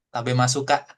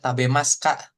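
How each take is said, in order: First: The u after mas is pronounced. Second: The u after mas is silent.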